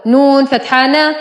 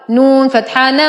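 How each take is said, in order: Both takes have the same delivery.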